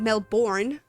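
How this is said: It is said with an American pronunciation. The speaker calls it wrong. "Americans pronounce Melbourne"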